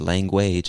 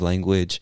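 First: The ending does not sound like 'edge'. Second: The ending sounds like 'edge'. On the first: The speaker calls it wrong. "because you said language instead" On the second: The speaker calls it right. "most of the time it's edge"

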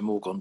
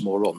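First: The G sound is pronounced in the middle. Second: The G sound is dropped from the middle. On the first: "you don't have to say the G" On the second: "you don't have to say the G, so morgon becomes moron"

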